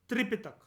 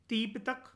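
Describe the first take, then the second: First: The first syllable is tri, with an r. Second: The first syllable is ti, with no r. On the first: This is the Sanskrit and Prakrit form of the term. "Sanskrit और प्रा, प्राकृत के अंदर इसको बोला जाता है त्रिपितक" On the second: This is the Pali form of the term. "ये पाली के अंदर बोला जाता है"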